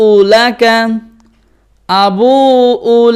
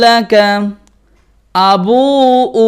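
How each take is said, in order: No difference in how they are said.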